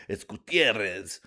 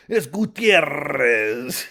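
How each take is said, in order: First: Said in the usual way. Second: "Gutierrez" drawn out very slowly, higher and louder in a thick Mexican accent; heavy Mexican accent. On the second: Shown as a demonstration. Comic hamming up his name to sponsors, Mexican accent. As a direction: roll out "Gutierrez" like a proud announcer, Mexican accent. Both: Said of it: "go hella beaner with it".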